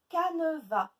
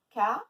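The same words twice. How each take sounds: First: Said in the usual way. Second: CANEVAS as loud ca, ne, va with long pauses; split into syllables. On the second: Shown as a demonstration. Teacher counting three syllables, syllable by syllable. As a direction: break Canevas into three beats. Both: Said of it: "Trois syllabes".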